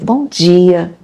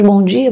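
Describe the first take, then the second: First: The greeting sounds warm and smiling. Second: The greeting sounds mechanical and routine.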